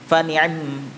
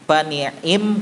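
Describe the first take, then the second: First: The vowel after the ain is clipped short. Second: The vowel after the ain is fully pronounced. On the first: "harokatnya dibaca sebagian aja yaitu dua per tiga" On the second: "kalau full"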